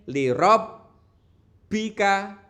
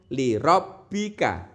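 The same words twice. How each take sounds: First: The doubled consonant is held for a long time. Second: The doubled consonant is pressed briefly and released. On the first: The speaker calls it wrong. "tidak boleh li rabbika" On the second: The speaker calls it right. "harus langsung li rabbika"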